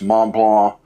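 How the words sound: The name is said with French pronunciation. The speaker calls it wrong. "French little people out there that for some reason call this"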